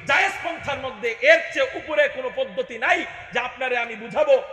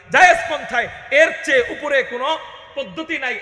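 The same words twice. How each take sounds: First: Said in the usual way. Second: Shouted, driving the point home; preaching shout. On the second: Acted. Preacher shouting the same line again to the crowd. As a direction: hammer the line at full voice.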